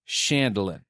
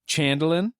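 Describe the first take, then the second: First: The name begins with a soft CH sound. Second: The name begins with a hard CH sound. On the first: "Do the hard and the soft next to each other?" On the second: "Do the hard and the soft next to each other?"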